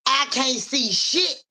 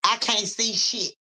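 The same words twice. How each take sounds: First: "I can't see shit" very slow, higher, rising on "shit"; drawn out. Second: Said in the usual way. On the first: Shown as a demonstration. Acting the reading, says "I can't see shit" slowly with a rising "shit". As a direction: stretch every word of "I can't see shit" and lift "shit".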